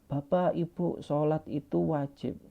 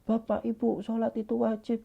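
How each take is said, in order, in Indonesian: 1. Diucapkan dengan nada tenang dan lembut. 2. Diucapkan dengan nada kasar, seperti membentak.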